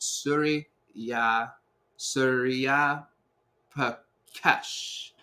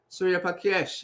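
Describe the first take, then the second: First: "Surya" then "Surya Pakesh" said slowly, each syllable drawn out; careful slow name. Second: "Surya Pakesh" run together quickly in one breath; rushed name. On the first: Shown as a demonstration. Host corrects himself saying a viewer's name, slow and careful. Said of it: "I said it wrong ... very fast". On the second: Real, not acted. Host greets a viewer by name, quick and rushed. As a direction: toss the name off fast without care. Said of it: "I said it very fast".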